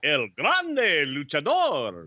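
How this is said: It is said dramatically with rolled R's.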